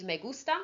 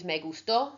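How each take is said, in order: First: "me gusta" stressed on gus. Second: "me gustó" stressed on the last syllable; stress on final TÓ. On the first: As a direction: say "me gusta" with the beat on gus, light final a. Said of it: "you do not use". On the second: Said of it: "you use". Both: Shown as a demonstration.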